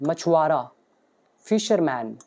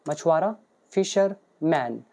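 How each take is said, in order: Both takes have the same delivery.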